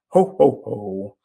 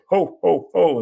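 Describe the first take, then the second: First: It is voiced like a booming commercial giant. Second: It is voiced like a jolly Christmas laugh. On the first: It calls to mind a vegetable advertisement mascot. "you might associate that with an old commercial called Green Giant" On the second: It calls to mind Christmas and Santa Claus. "then you associate it with Santa Claus"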